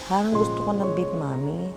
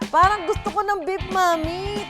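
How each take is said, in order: First: The line is said in a sad, gloomy tone. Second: The line is said in a happy, cheerful tone. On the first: "Paano naman magyaya ang sad girl?" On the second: "ang unang emosyon, happy!"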